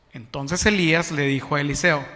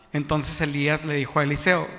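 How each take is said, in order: Both takes have the same delivery.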